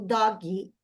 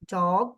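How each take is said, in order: First: The final G is clearly voiced and audible. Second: The final G is barely heard, without voicing. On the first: The speaker calls it wrong. "Eu não falo dog" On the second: The speaker calls it right. "eu não posso ouvir o som do G"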